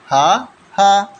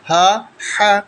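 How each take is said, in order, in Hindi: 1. दोनों अक्षर एक ही आवाज़ से बोले जाते हैं। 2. दोनों अक्षर गले की दो अलग आवाज़ों से बोले जाते हैं। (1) "इसको एक ही आवाज़ में पढ़ जाते हैं" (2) "देखो कितना फ़र्क है आवाज़ का, अलग अलग आवाज़ है"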